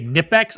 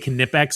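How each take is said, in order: First: The first K sound is silent. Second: The first K sound is pronounced. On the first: "The K is silent" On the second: "that it's how they pronounce it"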